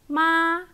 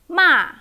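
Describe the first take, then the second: First: The pitch stays high and level. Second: The pitch falls sharply from high. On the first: "high flat"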